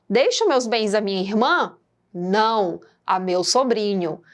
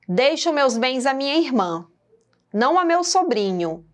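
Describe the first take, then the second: First: A question rise, then a pause after 'não'. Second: 'Não a meu sobrinho' runs on without a pause.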